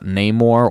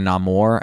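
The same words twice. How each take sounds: First: The name is said in an English-sounding way. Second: The name is said in a Latin-sounding way. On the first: This is the name as used in the comics. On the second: This is how the character says his own name in the movie.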